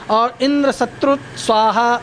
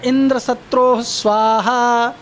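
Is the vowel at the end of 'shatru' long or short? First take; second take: short; long. First: The vowel ending 'shatru' is said short and quick. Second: The vowel ending 'shatru' is drawn out long. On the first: "ये उ जो है उसका slow उच्चारण करेंगे, मतलब जल्दी से उच्चारण करेंगे" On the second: "सत्रोह ये अगर लॉन्ग उच्चारण करेंगे तो उसका अर्थ अलग हो जाता है"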